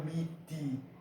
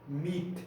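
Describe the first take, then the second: First: The word ends with an extra i vowel. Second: The word ends sharply on the t sound. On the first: The speaker calls it wrong. "Não miti com o i" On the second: The speaker calls it right. "Mit com T"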